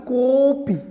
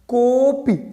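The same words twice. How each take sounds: Both takes have the same delivery.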